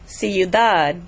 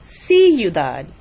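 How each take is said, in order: First: The stress is on the last syllable. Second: The stress is on the first syllable. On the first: The speaker calls it right. "I'm putting the stress on the dad" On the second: The speaker calls it wrong. "not the ciudad"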